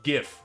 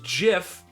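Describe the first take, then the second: First: It starts with a hard G sound. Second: It starts with a soft J sound. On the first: The speaker calls it right. "like gift or great" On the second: The speaker calls it wrong. "Anyone who says GIF can drown in a jar of Jif peanut butter"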